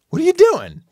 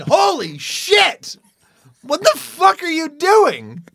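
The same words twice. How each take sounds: First: High, polite puzzled question; bright curiosity masking a bit of fear; curious with hidden fear. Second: High and slow, stunned disbelief; drawn-out astonished swearing; shocked outburst. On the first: Neighbor asks politely, curious but a little uneasy. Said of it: "to be realistic about it". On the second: Imagined neighbor, startled by him in the tree, slow and shocked. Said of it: "I didn't get a". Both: Retold or imitated.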